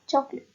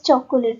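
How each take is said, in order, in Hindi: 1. मध्य स्वर मौन है, जिससे दो अक्षर बनते हैं। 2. मध्य स्वर एक अक्षर की तरह उच्चारित होता है। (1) "but चॉकलेट" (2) "don't pronounce it as चॉकोलेट"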